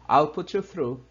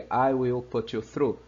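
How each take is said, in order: First: I and will are joined into one syllable. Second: The words I and will are said separately. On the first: "na forma contracted"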